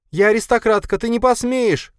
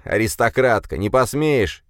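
First: High, loud, frantic cry; desperate scream. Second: Parroting her words with a sneer; mocking mimicry. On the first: Marina fighting off her attacker, screaming high and loud. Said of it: "кричала Марина". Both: A narrator's reading.

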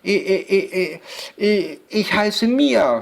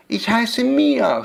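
First: Put-on nervous child stammering on the first sound; stuttering. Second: Put-on high, slow answer from a nervous girl; timid child, no stutter. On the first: Girl giving the witch her name, stuttering nervously. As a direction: stutter repeatedly into a high answer. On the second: Girl giving the witch her name, timid but fluent. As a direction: answer high and slowly without stammering. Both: A narrator's reading. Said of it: "stotterte Mia".

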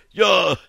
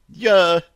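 First: High, louder barked yes-sir; barked reply. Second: High, louder squeaked yes-sir; a frightened little squeak. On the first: Private answering the sergeant properly, barking. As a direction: snap it out like a soldier. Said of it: "рявкнул Кузнецов". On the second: Scared private answering the sergeant, squeaking. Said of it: "пискнул Кузнецов". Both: A narrator's reading.

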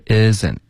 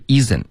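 First: "isn't" with a short lax "ih" vowel; proper "isn't"; correct isn't. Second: "isn't" with an "ee" vowel like Chinese "yi"; wrong isn't. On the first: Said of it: "是isn't". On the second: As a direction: say "isn't" with a tense long "ee". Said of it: "不是isn't". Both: Shown as a demonstration.

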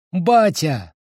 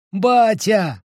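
First: Put-on higher child's joyful call; child calling dad. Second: Put-on much higher, louder child's shout; louder repeat of the call. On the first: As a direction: call out to father. (радостный детский зов) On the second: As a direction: call him again, even higher and louder. (ещё выше и громче зовёт отца) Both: Дети зовут вернувшегося отца.

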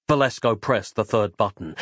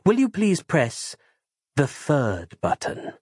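First: Said in the usual way. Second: Polite character voice. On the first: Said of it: "narration of the same words". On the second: Acted. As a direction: ask it slowly, politely, in character. Character asks Valesco to press.

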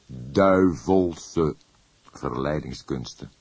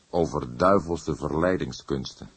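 First: Slow repeat. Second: Said in the usual way. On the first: Acted. Old inspector repeating the phrase slowly to his colleague. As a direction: savour "Duivelse verleidingskunsten" slowly, weighing it. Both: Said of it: "herhaalde hij traag".

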